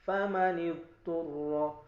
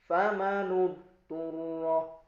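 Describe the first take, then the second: No difference in how they are said.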